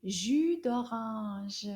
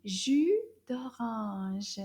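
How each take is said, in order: First: Drawn out very slowly; slow teacher model. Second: Drawn out slowly again; slow repeat. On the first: Teacher models the juice name for pupils, very slowly. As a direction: stretch each sound for the class. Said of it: "It's called". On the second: Teacher repeats the word for pupils, slowly. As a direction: repeat it slowly for learners to copy. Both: Shown as a demonstration.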